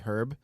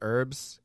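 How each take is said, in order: First: The word starts with an h sound. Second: The word starts without an h sound. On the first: "the British say herb because there is an H in the front" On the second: "now we say herbs"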